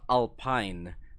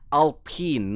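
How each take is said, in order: First: The word is said in an Americanized way. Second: The word is said in its original, non-American way. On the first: The speaker calls it wrong. "not Alpine" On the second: The speaker calls it right. "it's actually pronounced"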